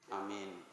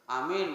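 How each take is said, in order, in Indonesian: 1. Diucapkan lemah, tenaganya rendah. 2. Diucapkan keras, penuh semangat. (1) "Doanya kelamaan sikit" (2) "pertama semangat"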